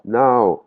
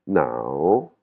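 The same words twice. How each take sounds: First: "nao" high and loud, without the dip; mistaken tone. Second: "nao" starting low, bending down then swinging up. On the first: Teacher shows students what to avoid, high "nao". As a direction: push "nao" up high and let it fall. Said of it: "c'est pas nao". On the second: Teacher corrects the tone for students, dipping-rising "nao". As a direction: dip "nao" low and lift its end. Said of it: "une intonation qui monte et qui descend". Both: Shown as a demonstration.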